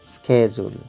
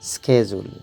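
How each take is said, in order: The two takes are said the same way.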